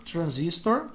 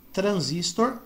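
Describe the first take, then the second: First: Transistor with American R, stress on ZIS; English pronunciation. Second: Transistor with Brazilian tapped R, stressed at the end; Portuguese pronunciation. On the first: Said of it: "no inglês americano eles pronunciam como R". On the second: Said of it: "por isso que fica transistor". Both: Shown as a demonstration.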